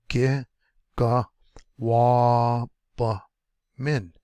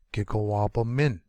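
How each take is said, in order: First: "gi, ga, wa, ba, min" each said apart; syllable by syllable. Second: Said in the usual way. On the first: Shown as a demonstration. Teacher breaking a long word for learners, syllable by syllable. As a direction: stretch out "wa", pause between all five pieces.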